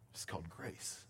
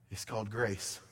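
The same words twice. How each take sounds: First: Much softer and lower, nearly breathed; hushed echo. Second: Softer statement. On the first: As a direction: echo the words as a hush. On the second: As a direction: lower and softer, settling down. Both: Acted. Repeated line, second much softer.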